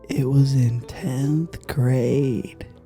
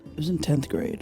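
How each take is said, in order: First: It is said slower, in a sexier voice. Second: It is said at a normal pace.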